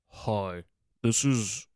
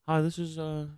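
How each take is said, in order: First: It is said in a deep voice. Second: It is said in a high, womanly voice.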